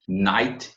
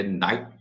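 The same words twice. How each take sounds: First: Said in the usual way. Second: "night" with the final T swallowed. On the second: Shown as a demonstration. Teacher shows learners the optional swallowed T, swallowed-T demo. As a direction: stop "night" short, T unreleased. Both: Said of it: "você pode engolir o T".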